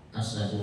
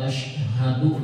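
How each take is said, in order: First: The first consonant is a plain 's' sound. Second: The first consonant is an 'sh' sound. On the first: It means lion. The speaker calls it wrong. "dibaca asadu. Apa artinya? Singa artinya" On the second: It means I bear witness. The speaker calls it right. "ada asyhadu nih"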